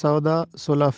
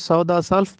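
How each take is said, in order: First: The second word sounds like 'sulaf'. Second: The second word sounds like 'salf'. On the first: The speaker calls it right. "इसका दुरुस्त तलफ़्फ़ुज़ है" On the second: The speaker calls it wrong. "हम इसको सौदा सल्फ पढ़ते हैं, जो कि गलत है"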